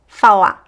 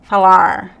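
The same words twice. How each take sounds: First: The final R is dropped, ending on the vowel. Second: The final R is a curled American-style R. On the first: "it disappears, right? We just hear the vowel" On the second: "the like American R"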